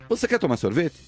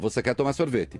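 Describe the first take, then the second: First: It ends with a questioning rising tune. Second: It ends with a flat, falling statement tune.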